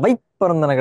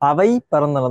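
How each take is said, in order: First: The second word's first consonant is doubled. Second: The second word's first consonant is single. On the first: The speaker calls it wrong. "அவை பறந்தன கிடையாது" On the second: The speaker calls it right. "அவை பறந்தன தான்"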